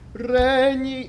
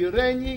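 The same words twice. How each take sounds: First: The first syllable is stressed and lengthened. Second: Both syllables are given equal length. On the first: The speaker calls it right. "You still have to give the stress of the word" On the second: The speaker calls it wrong. "it can't be regni"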